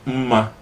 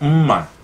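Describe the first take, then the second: First: It is said with the tone pattern meaning beauty. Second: It is said with the tone pattern meaning knife. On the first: The word means beauty. The speaker calls it wrong. "you're gonna end up saying umma, which is beauty" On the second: The word means knife. The speaker calls it right. "pronounce it the right way. It's umma"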